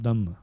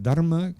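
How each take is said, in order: First: "Dhamma" with no R, just a held M; Pali form. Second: "Dharma" with an R before the M; Sanskrit form. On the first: Teacher showing the Pali-only word to students, "Dhamma" said without an R. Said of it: "If you just say Dhamma". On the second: Teacher showing the inclusive word to students, "Dharma" said with its R. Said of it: "I emphasize the word Dharma". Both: Shown as a demonstration.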